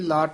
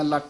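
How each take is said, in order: First: The word is said softly with an open vowel. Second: The word is clipped with a doubled consonant. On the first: The speaker calls it right. "ਲਾਟ ਪੋਲਾ ਬੋਲਣਾ" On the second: The speaker calls it wrong. "ਲੱਟ ਨਹੀਂ ਕਹਿਣਾ"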